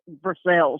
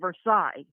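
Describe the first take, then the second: First: The name has the local Kentucky pronunciation. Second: The name has the outsider pronunciation. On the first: This is how people living there say it. "everybody here pronounces it Versailles" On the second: This is how visitors from elsewhere say it. "people who are out of town call it Versailles"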